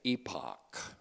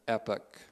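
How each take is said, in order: First: It is said with a British pronunciation. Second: It is said with an American pronunciation.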